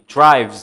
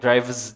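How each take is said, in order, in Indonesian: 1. Itu satu suku kata yang diakhiri bunyi z. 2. Ada vokal tambahan sebelum akhirannya. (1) "maksudnya bunyinya begitu seperti itu tadi" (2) "jangan sampai ke drives"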